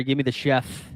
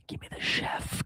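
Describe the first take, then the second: First: Said in the usual way. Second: Breathy whispered repeat, slow; whispering. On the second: Shown as a demonstration. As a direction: whisper it for emphasis. Repeats line, then whispers it.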